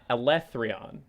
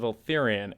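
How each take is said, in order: First: The name is said as Elethrion. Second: The name is said as Eltharion. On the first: The speaker calls it right. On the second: The speaker calls it wrong.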